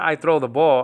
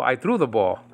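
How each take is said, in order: First: I THROW the ball, as the rejected version; stress on THROW. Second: Threw given as the correction, falling to the end; I THREW the ball, as the corrected version; stress on THREW. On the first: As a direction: throw held up as the wrong word. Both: Shown as a demonstration. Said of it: "It's not I throw the ball".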